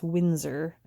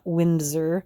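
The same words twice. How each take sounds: First: The name is said without a d sound. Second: The name is said with a d sound. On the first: The speaker calls it right. "Windsor with no D. ... It's Windsor" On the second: The speaker calls it wrong. "not Windsor"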